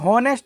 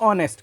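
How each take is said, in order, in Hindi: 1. यह शब्द H ध्वनि से शुरू होता है। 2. यह शब्द स्वर ध्वनि से शुरू होता है। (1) "ये ये हॉनेस्ट नहीं पढ़ेंगे" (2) "इसको हम पढ़ेंगे ऑनेस्ट"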